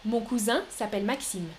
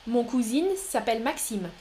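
First: "cousin" with a nasal last vowel and silent N; masculine cousin pronunciation. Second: "cousin" pronounced like "cousine", with final N heard; feminine-sounding cousin. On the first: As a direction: end "cousin" on nasal "in", as koo-zan. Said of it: "Deuxième prononciation". (« cousin » au masculin, finale nasale en « in ») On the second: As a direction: turn "cousin" into koo-zeen. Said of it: "Je répète". (« cousin » dit comme « cousine », N final sonore) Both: Shown as a demonstration.

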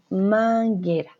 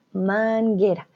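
First: Manguera with a hard G and no U: man-ge-ra; teacher models manguera the right way; correct manguera. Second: Manguera said man-ge-ra, no U sound; teacher models the right manguera; correct manguera. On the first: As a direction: say man-ge-ra, silent U. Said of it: "Decimos manguera". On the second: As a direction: say manguera with a silent U. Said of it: "No decimos manguera". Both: Shown as a demonstration.

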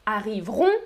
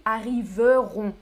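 First: Arriveront as a-riv-ront; spoken short form. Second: Arriveront as a-ri-ve-ront; as written. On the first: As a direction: drop the E in arriveront. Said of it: "Je prononce". (« arriveront » sans le E, a-riv-ront) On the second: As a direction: sound the E in arriveront. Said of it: "mais j'écris arriveront avec un E". (« arriveront » avec le E, a-ri-ve-ront) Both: Shown as a demonstration.

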